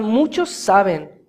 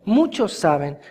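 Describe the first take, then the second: First: Slow, weighty "muchos saben" with "muchos" stretched; slow emphasis. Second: Said in the usual way. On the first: Shown as a demonstration. Preacher pressing the point to the congregation, slow and weighty. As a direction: lean on "muchos" and draw it out slowly.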